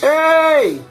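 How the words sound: It is shouted at a high pitch.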